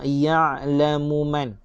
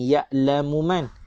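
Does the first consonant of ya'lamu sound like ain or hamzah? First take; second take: ain; hamzah. First: The middle consonant is a throaty pharyngeal sound. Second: The middle consonant is a plain glottal stop. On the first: The speaker calls it right. "Kita nak ya'lamu man" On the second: The speaker calls it wrong. "Jangan baca huruf ain dengan hamzah. Jangan ya'lamu man"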